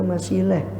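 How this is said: The name ends in an 'eh' sound. This is how local people pronounce it. "orang sana bacanya logatnya Masileh"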